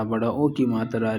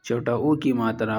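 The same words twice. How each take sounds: First: او in بڑا او said as a full long o; teacher contrasting the long vowel; long o sound. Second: او in چھوٹا او said as a short u; teacher showing the short vowel; short o sound. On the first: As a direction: stretch the او into a long o. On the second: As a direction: clip the او short, like u. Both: Shown as a demonstration. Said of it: "جیسے ہندی کے اندر".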